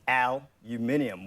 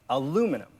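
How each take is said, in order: First: The stress falls on the first and third syllables. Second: The stress falls on the second syllable. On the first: "Australians stress the aluminium, one and three" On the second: "Americans stress the second"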